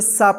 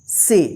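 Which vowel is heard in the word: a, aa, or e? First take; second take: aa; e. First: The vowel is a long 'aa' sound. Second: The vowel is an 'e' sound. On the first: The speaker calls it wrong. "ना इसको सा पढ़ेंगे" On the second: The speaker calls it right. "तो इसका उच्चारण ए होगा"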